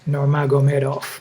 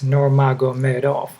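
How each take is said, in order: First: The name is said at a quick pace. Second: The name is said slowly and deliberately. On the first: "Let's try again" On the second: "I just slowed it down for you"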